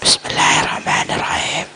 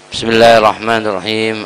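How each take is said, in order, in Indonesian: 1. Dibisikkan hampir tanpa suara. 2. Diucapkan dengan suara jelas.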